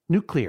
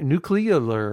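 First: The word is said with its standard syllables. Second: The word is said with extra syllables added. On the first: The speaker calls it right. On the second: The speaker calls it wrong.

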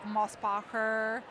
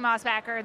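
First: The name is said with a German sound. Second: The name is said the American way.

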